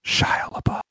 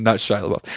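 First: Hushed, fully whispered mock reveal; dramatic whisper. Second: Said in the usual way. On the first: Storyteller springs a fake reveal on his listener, dramatic whisper.

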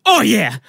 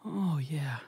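First: High, loud fake cry of pleasure; loud mock moan. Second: Whispered fake moan of pleasure; very quiet mock moan. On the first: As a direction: belt out a hammed-up lover's moan. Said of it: "moaning a little bit, and I'm just like". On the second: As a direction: breathe out a sly, hushed moan. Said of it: "so very quietly, I just start going".

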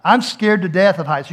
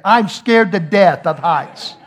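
First: Said in the usual way. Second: "scared to death" slow, loud and deliberate; emphatic insistence. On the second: Retold or imitated. Dad admitting his fear of heights, "scared to death" slow and emphatic. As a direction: hammer each word of "scared to death of heights".

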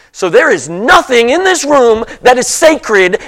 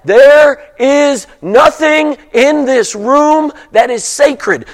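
First: Said in the usual way. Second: Slow and higher, leaning on "There is nothing"; slow, weighty emphasis on "There" and "nothing"; emphasized repeat. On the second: Shown as a demonstration. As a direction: repeat it slowly, driving home "nothing". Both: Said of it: "let me repeat that and emphasize that".

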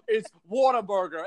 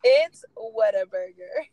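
First: "Whataburger" with a Long Island "wawta"; Long Island accent. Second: "Whataburger" said the Texas way, loud and drawn out; Texas pronunciation. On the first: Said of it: "weird Long Island accent". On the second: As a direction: say "Whataburger" like a Texan, stretched. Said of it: "so you pronounce it Whataburger". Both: Shown as a demonstration.

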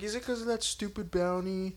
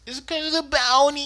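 First: Imitating Vash. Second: High, fast whiny Vash voice; imitating Vash. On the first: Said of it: "He's like". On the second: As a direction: whine it quickly in a put-on pitch. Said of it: "He does say it exactly like that".

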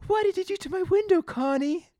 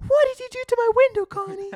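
First: Much higher, louder indignant Bart; mock Bart outrage. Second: Much higher, loud and fast indignant shout; hammed-up outrage. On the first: Bart confronting Connie about his broken window, higher and louder. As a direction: demand it of Connie in comic outrage. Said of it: "it's a funny line". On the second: Bart yelling at Connie over his smashed window, loud, high and fast. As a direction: blast it at her in full comic fury. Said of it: "He's like".

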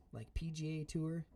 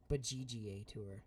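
First: "P G A Tour" with a clear P sound; P G A said plainly. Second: "G G A Tour" with a hard G in place of P; G G A spelled out. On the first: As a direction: say "P G A Tour", starting with P. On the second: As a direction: say "G G A Tour", G G A letter by letter. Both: Shown as a demonstration.

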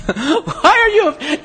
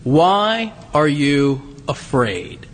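First: Higher, laughing through the words; laughing in disbelief. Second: Gentle question. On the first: Real, not acted. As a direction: laugh at the question. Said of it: "now that's a silly question". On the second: Retold or imitated. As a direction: ask it tenderly, slowly. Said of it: "Jesus says to them".

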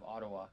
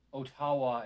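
First: Said in the usual way. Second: "Ottawa" stressed on the middle syllable; botched "Ottawa", oh-TAH-wah; funny mispronunciation. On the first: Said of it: "instead of Ottawa". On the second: Shown as a demonstration. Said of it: "really funny mispronunciation of that city".

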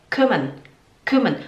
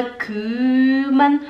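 First: Quick first syllable in "kümmern"; correct short vowel. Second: Slow, dragged "küüümern"; learner's overlong first vowel in "kümmern"; wrong long vowel. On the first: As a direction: clip the vowel of "kümmern" before the double M. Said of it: "Porque tem dois M's". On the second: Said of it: "é kümmern". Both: Shown as a demonstration.

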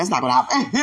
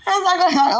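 First: Said in the usual way. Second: Laughing. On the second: Real, not acted.

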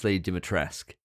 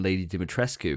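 First: Dimitrescu said di-mi-TRESK; correct pronunciation. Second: Dimitrescu with the final -cu sounded; wrong pronunciation. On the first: Co-host correcting himself, Dimitrescu ending in "tresk". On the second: Co-host showing an old mistake, Dimitrescu ending in "skoo". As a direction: end Dimitrescu on a clear "skoo". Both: Shown as a demonstration. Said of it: "for ages we were saying".

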